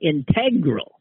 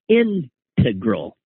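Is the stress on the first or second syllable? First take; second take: second; first. First: The stress is on the second syllable. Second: The stress is on the first syllable. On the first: "emphasizing the second syllable" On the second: "with the emphasis on the first syllable"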